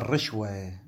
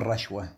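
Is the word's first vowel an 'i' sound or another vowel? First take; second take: i sound; another vowel. First: The first vowel after r is an i sound. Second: The first vowel after r is not i. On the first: The speaker calls it right. "الكلمة الصحيحة هو الرشوة ... بكسر الراء" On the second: The speaker calls it wrong. "مو الرشوة"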